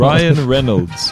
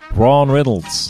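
First: The name is said in a neutral accent. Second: The name is said in a New Zealand accent.

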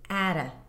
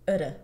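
First: The first vowel is full, as in cat. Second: The first vowel is reduced to a schwa. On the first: The phrase carries stress. "this is how this phrase is pronounced when it's stressed" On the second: The phrase is unstressed between content words. "the atta is going to be reduced to utta"

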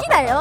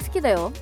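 First: It is said playfully, in a teasing way. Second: It is said casually, in an offhand way.

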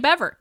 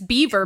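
First: It sounds like bever, not the animal word. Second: It sounds like the animal word beaver. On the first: This is the pronunciation claimed to be correct. The speaker calls it right. "but it's actually Bever" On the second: This is the pronunciation people assume. The speaker calls it wrong. "you think it's Beaver"

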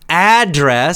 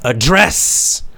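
First: The stress is on the first syllable. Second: The stress is on the second syllable. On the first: It is a noun: where you live or receive mail. "The first one, address, strong on the first, the beginning" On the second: It is a verb: to talk to someone directly. "more stress on the end of the word"

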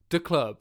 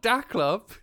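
First: The first word is light and thrown away. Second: The first word is given full weight. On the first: The speaker calls it right. "Just like throw it away" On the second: The speaker calls it wrong. "Not da club"

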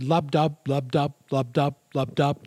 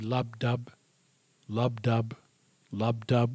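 First: The beats are said fast. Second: The beats are said slowly.

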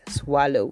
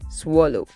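First: The vowel after W is not an O sound. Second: The vowel after W is an O sound. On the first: The speaker calls it wrong. "not swallow" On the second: The speaker calls it right. "The word is swallow"

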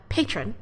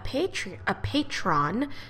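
First: The word is pronounced the standard English way. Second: The word is pronounced in an odd, garbled way. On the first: The speaker calls it right. "That's how you say it in English" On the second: The speaker calls it wrong. "I didn't even say that like a real word"

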